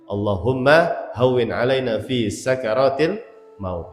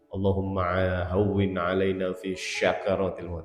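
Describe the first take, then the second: First: Sakaratil begins with a thin s sound. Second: Sakaratil begins with an sh sound. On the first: The speaker calls it right. "Yang betul pakai sin ya" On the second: The speaker calls it wrong. "sering kebablasan pakai shin"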